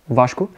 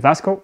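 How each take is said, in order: First: The name is said in its native way. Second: The name is said in an English way. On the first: The speaker calls it right. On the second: The speaker calls it wrong.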